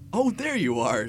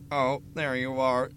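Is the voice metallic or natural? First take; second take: natural; metallic. First: It is read in a plain natural voice. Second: It is read in a metallic robotic voice. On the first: The speaker calls it wrong. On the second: The speaker calls it right.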